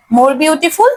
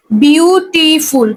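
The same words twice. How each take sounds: First: Said in the usual way. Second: "beautiful" very slow, in three stretched beats; syllable by syllable. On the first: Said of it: "এর আগে মোর লাগাই দিবা". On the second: Shown as a demonstration. Teacher asking students to count, "beautiful" slowly syllable by syllable. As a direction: draw out each syllable of "beautiful" separately. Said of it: "তোমার কতবার উচ্চারণ করে?".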